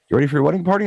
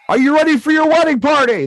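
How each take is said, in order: First: It is said with low, flat energy. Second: It is said with loud, lively energy.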